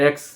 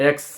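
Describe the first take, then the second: Both takes have the same delivery.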